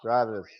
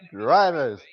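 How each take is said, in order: First: It is said quietly with little energy. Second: It is said loudly with lots of energy. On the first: The speaker just wants to get it over with. The speaker calls it wrong. "rather than" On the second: The speaker is enthusiastic about starting the race. The speaker calls it right. "put a little bit more gusto on it? Like, how about"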